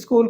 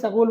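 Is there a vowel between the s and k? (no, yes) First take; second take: no; yes. First: The s and k come together. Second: A vowel separates the s and k.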